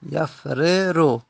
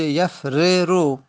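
First: یفررو stretched syllable by syllable, ya-fre-ru; slowly drawn out. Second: Said in the usual way. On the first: Shown as a demonstration. Teacher repeating the original form slowly. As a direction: spell out یفررو slowly for the class. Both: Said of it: "اصلش بوده یفررو".

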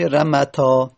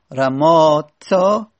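First: "رمتا" with a short a in the middle, long ā only at the end; alef dropped. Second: Very slow "رماتا" with both long ā vowels drawn out; long alef kept. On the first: Teacher showing the result of dropping alef, short-vowelled "رمتا". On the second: Teacher showing the form before alef is dropped, drawn-out "رماتا". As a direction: stretch the middle ā in "رماتا". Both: Shown as a demonstration.

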